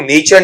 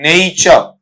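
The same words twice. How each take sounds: First: The first vowel is a pure 'e' sound. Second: The first vowel glides from 'e' to 'i'. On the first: The speaker calls it wrong. "वो नेचर नहीं" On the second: The speaker calls it right. "क्या बनेगा बेटा आपका वहां पर"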